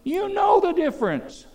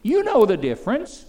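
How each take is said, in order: First: Second take, much higher and falling hard; emphatic repeat. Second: First take, rising and louder; emphatic repeat. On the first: Preacher hammering the point at the congregation, high falling cry. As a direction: drive it home with a high cry. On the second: Preacher challenging young listeners, rising insistence. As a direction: say it up, a pointed question to the crowd. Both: Acted.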